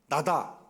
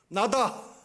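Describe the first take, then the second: First: It is said in a plain, softer voice. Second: It is said with more force and energy.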